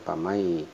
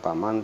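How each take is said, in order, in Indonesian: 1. Bunyi n di akhir menyatu menjadi bunyi y. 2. Bunyi n di akhir diucapkan dengan jelas. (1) "idgham sehingga dibacanya bukan paman tapi pamai" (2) "bukan paman"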